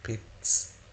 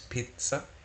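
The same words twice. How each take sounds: First: The middle consonant is a sharp ts sound. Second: The same.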